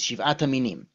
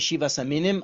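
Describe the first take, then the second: First: It is said the modern Israeli way. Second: It is said the non-Israeli way. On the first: "now I speak like an Israeli" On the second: "Some people say"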